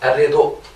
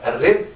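First: The word ends with an audible u vowel. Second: The word ends on a bare consonant. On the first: This is the pause form with the vowel transferred. "هينقلوا الضمه دي الى ... الدال" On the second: This is the pause form without vowel transfer. "المفروض هذا الرد الرد"

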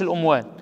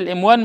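First: The first vowel of the word is a. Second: The first vowel of the word is i. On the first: The speaker calls it wrong. "مش الأموان" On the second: The speaker calls it right. "هي الإموان"

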